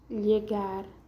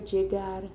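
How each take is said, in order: First: The word begins with a y sound. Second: The word begins with a j sound. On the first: "Tiene el sonido de I como lluvia o llegar" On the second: "el sonido de D J"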